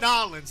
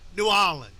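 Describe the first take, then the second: First: The name is run together into two syllables. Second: The name is said in full, syllable by syllable.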